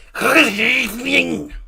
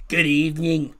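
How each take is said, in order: First: Slow, drawn-out Scouse good evening; Scouse accent. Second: Put-on Scottish accent. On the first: Retold or imitated. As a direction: stretch good evening in a thick Liverpool voice. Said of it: "if you're Scouse". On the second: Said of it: "if you're Scottish".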